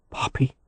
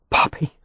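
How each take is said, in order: First: Soft ragged Poppy. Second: Breathless gasp of Poppy. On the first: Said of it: "he said raggedly". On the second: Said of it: "He was breathless". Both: A narrator's reading.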